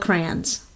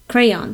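First: The word is said with one syllable, 'crans'. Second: The word is said with two syllables, 'cray-ons'. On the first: This is the speaker's own regional way of saying it. "this is how I would say it" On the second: This is the other speaker's and the listener's way of saying it. "He says it the way you say it"

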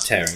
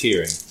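First: It is said like tear as in ripping. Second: It is said like tear as in crying. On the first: Something is being ripped apart. The speaker calls it wrong. "Not tearing" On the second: Someone is shedding tears. The speaker calls it right. "it's tearing. Makes him cry"

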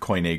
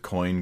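First: It is said with an extra final syllable. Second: It is said as one syllable, like coin. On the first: The speaker calls it right. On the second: The speaker calls it wrong.

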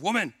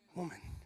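First: The word is said harshly and aggressively. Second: The word is said warmly and affectionately. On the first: The person addressed is being scolded. "that sounds a little bit aggressive" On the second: The person addressed is being honored. "it's actually a word of endearment"

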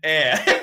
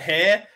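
First: The word starts with a vowel, no h. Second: The word starts with an h sound. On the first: The speaker calls it right. "and air. Finally" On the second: The speaker calls it wrong. "We pronounced it hair"

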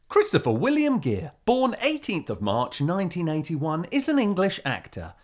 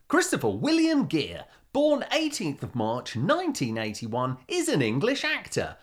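First: It is read in a plainer, moderate voice. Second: It is read in an over-the-top DJ voice.

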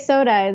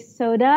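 First: It is said in a plain American accent. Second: It is said with a Thai accent.

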